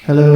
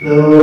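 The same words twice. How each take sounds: First: The voice has only a little echo. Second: The voice has a lot of echo. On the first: "I'll start with it pretty uh, pretty low here" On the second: "I'm gonna get super wet"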